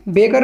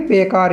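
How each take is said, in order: First: बेकार misread as "bekar", short "a" after क; short second vowel. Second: बेकार as "bekaar", long "aa" after क; long second vowel. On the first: Teacher showing the reading to avoid, short-vowel बेकार. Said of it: "बेकार नहीं पढ़ेंगे". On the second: Teacher giving the correct reading, long-vowel बेकार. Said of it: "इसको हम बेकार ही पढ़ेंगे". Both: Shown as a demonstration.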